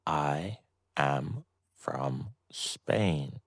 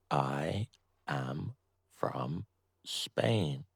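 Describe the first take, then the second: No difference in how they are said.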